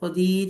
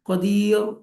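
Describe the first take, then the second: First: The final r is light and thin. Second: The final r is heavy and full. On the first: The speaker calls it right. "ഖദീർ എന്ന് പറയും" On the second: The speaker calls it wrong. "ഖദീർ എന്ന് പറയില്ല"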